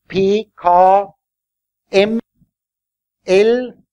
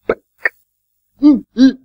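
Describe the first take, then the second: First: "P, K, M, L" as spelled-out names, pee, kah, em, ell; letter names with vowels. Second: "P, K, M, L" as bare pops and hums, no vowel; pure consonant sounds. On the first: Teacher contrasting letters with sounds, "P, K, M, L" as full letter names. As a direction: say "P, K, M, L" with a vowel joined to each consonant, spaced out. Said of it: "dass man das zusammenhängt".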